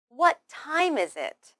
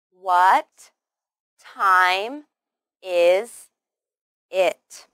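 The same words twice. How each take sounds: First: Said in the usual way. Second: Each word said slowly, loudly and separately; WHAT, TIME, IS, IT with a clear pause after each. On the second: Shown as a demonstration. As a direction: spell the question out one word at a time. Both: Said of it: "let's try the whole sentence".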